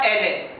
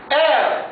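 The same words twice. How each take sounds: First: Elle said as elle est, ɛl ɛ; elle mispronounced as ɛl ɛ; wrong elle. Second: Elle said simply as ɛ, higher; elle said ɛ with no ending; correct elle. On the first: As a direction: stretch elle into elle est, with an extra syllable. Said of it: "c'est une prononciation mauvaise". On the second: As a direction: say elle short and high, as ɛ. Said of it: "Elle, pas elle est". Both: Shown as a demonstration.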